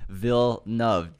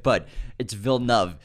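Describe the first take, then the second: First: Villeneuve slowed right down, vil-NUV, in two syllables; slow pronunciation. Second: Villeneuve said in two syllables, vil-NUV; correct pronunciation. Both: Shown as a demonstration. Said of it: "Two syllables".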